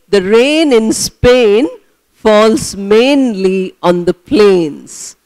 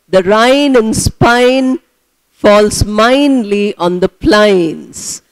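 First: The vowel in rain, Spain, mainly sounds like 'ay'. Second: The vowel in rain, Spain, mainly sounds like 'eye'. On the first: The speaker calls it right. "Actually, it should be" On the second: The speaker calls it wrong. "That is how she pronounces"

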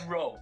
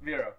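First: The name begins with an R sound. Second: The name begins with a V sound. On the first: The speaker calls it wrong. "Not Row" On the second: The speaker calls it right. "You pronounce the V first and then Row"

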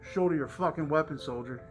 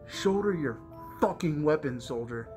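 First: The word 'fucking' flows casually without extra emphasis. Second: The word 'fucking' is forced with heavy emphasis. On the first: The cursing sounds casual and natural. "It's not like I would be like" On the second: The cursing sounds unnatural for the one saying it. "he forces the fucking part"

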